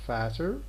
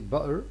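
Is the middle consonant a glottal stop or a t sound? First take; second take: t sound; glottal stop. First: The middle consonant is a plain t sound. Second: The middle t is replaced by a glottal stop. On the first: "instead of saying fatter, which also exists" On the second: "speakers of this accent here, they say butter"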